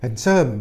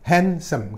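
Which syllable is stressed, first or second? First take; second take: second; first. First: The stress is on the second syllable. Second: The stress is on the first syllable. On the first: The speaker calls it wrong. "kalau baca bukan handsome" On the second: The speaker calls it right. "tekanan pada suku kata pertama kan"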